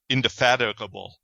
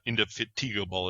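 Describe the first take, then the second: First: The middle part sounds like the word 'fat'. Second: The middle part sounds like the word 'fatigue'. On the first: This is how someone else pronounced it. "let me see if I can say it as he did" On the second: This is how the hosts pronounced it. "not indefatigable as we said it"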